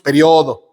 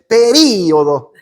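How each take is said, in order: First: The 'i' is unstressed, pe-RIO-do. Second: The stress falls on the 'i', pe-RÍ-o-do. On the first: This is how the speaker's own country says it. "Nosotros decimos periodo y no lleva acento" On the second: This is how Uruguayans and Argentinians say it. "Ellos dicen periodo y lo acentúan"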